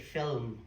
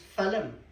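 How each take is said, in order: First: The L and M are joined with no vowel. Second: A vowel is inserted between the L and M. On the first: This is how it is said in England. "The English say film" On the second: This is how it is said in Ireland. "everybody in Ireland says film. ... We stick a U in"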